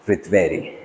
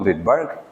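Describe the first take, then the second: First: The name is said with a Swiss pronunciation. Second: The name is said with an English pronunciation. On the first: "Swiss pronunciation" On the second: "usual English or distorted pronunciation"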